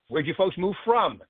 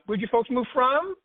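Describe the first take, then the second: First: The pitch falls at the end of the question. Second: The pitch rises at the end of the question. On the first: The speaker calls it right. "finish your sentence on a downswing, not go up at the end, go down" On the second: The speaker calls it wrong.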